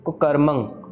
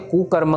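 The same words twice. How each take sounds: First: The first vowel is short. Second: The first vowel is drawn out long. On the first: The speaker calls it right. "औंकड़ है जो कि छोटी मात्रा है" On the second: The speaker calls it wrong. "Maximum जने इसको लंबा खींच के"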